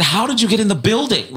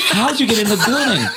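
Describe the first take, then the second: First: High, astonished question; baffled question. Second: High, quick and laughing. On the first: Caller retelling his question to Jesus, high astonished. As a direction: ask it truly baffled. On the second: Caller repeating his question to Jesus, laughing. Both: Retold or imitated.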